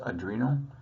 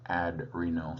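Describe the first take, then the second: First: The word is said in its usual way. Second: The word is split to bring out renal. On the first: The speaker calls it right. "It's pronounced adrenal" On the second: The speaker calls it wrong. "mispronounce it on purpose"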